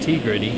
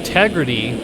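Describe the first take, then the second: First: The name begins with a separate 'tee' sound. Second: The name begins with a short 'teg' sound. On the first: The speaker calls it wrong. "not T-Gritty" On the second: The speaker calls it right. "it's Team Tegrity"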